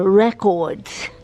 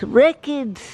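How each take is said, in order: First: "records" the British way, with a full second syllable, rec-ords; mock British "records"; British accent. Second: Said in the usual way. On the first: Shown as a demonstration. Vlogger showing how Britain says records, British accent. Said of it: "as they say in Britain".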